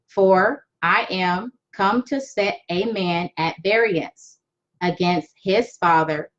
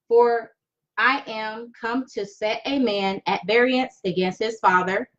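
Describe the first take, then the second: First: It is read slowly and deliberately. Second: It is read at a normal, faster pace.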